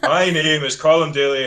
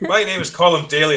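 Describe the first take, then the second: First: The voice sounds despondent. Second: The voice sounds angry. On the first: "you sound, you know, despondent" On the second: "that sounds quite angry"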